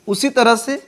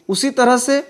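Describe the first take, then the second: Both takes have the same delivery.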